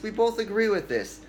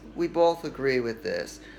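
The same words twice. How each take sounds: First: The phrase is said quickly without stopping. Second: The phrase is said slowly and hesitantly. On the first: The thought slips into the listener's subconscious. The speaker calls it right. "You have to say it fast" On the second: The other person will cut in and keep talking. The speaker calls it wrong. "You can't go"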